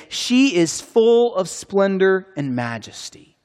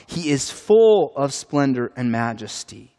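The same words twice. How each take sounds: First: High, slow incredulous asking; rhetorical question. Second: Settled, declarative statement of faith; firm affirmation. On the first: Acted. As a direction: pose it as a doubtful question, drawn out. Rhetorical question about the queen. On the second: Real, not acted. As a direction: state it as certain truth. Affirming of God what was questioned.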